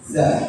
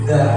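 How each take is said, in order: First: The consonant is a buzzing 'z' sound. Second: The consonant is a voiced 'th' sound. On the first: The speaker calls it wrong. "keplesetnya jadi za ... jadinya huruf zai" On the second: The speaker calls it right. "orang mengucapkan za"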